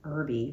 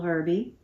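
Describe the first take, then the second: First: The word begins with a vowel, no h. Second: The word begins with an audible h sound.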